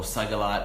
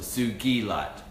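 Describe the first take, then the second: First: It begins with 'sugar', like 'sugar light'. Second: It begins with 'soo-gi', not 'sugar'. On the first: The speaker calls it wrong. "not sugarlight" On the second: The speaker calls it right. "I would want it pronounced properly as well. So Sugilite"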